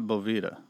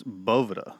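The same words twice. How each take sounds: First: Boveda with a long E, bo-VEE-da; wrong pronunciation. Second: Boveda with stress on BO, BO-veh-da; correct pronunciation. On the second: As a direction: say Boveda the brand's own way. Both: Shown as a demonstration. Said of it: "It's not Boveda".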